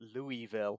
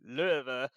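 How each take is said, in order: First: The name is said fully and clearly. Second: The name is slurred and shortened. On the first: The speaker calls it wrong. "super, super clear and clean" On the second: The speaker calls it right. "you meant to say it like Löwe"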